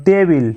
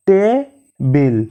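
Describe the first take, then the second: First: Said in the usual way. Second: টেবিল stretched slowly as te-bil; slow split of টেবিল after saying it normally; syllable by syllable. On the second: Shown as a demonstration. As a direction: pull টেবিল apart into two beats. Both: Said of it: "দুবারে উচ্চারিত হয়".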